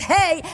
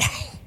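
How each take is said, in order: First: A plain English h, lightly breathed. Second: A strong breathy h from the back of the throat.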